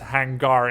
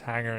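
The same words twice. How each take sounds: First: The word is pronounced with Dutch sounds. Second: The word is pronounced with English sounds. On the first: "it's hangar in Dutch" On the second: "it's hangar in English"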